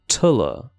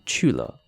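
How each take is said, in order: First: The syllable starts with a t sound. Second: The syllable starts with a ch sound. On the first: "Tulla rather than Chula" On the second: "rather than Chula"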